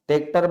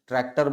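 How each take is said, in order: First: The word is said in a simplified, easier form. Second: The word is said in its full, harder form. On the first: This is how people in the village say it. "ट्रैक्टर बोलना आसान है" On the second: This is the standard form that is harder to say. "ट्रैक्टर बोलना कठिन है"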